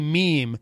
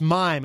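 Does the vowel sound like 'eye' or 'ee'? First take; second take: ee; eye. First: The vowel sounds like 'ee'. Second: The vowel sounds like 'eye'. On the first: The speaker calls it right. "It's actually meme" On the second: The speaker calls it wrong. "a lot of people mispronounce. They think it's mime"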